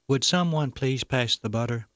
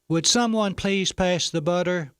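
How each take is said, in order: First: It is said in a very soft voice. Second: It is said a little louder.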